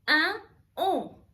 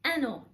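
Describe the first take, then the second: First: The two words are said apart without linking. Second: The n sound runs straight into the next word. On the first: The speaker calls it wrong. "ما بقولش أن أون" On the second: The speaker calls it right. "لما باجي أقول أنو"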